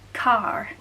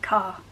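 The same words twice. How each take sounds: First: An R sound is pronounced at the end. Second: No R sound is pronounced at the end. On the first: "the American R" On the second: "where we say car"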